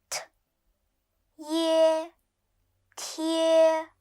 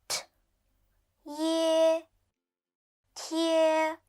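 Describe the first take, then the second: Both takes have the same delivery.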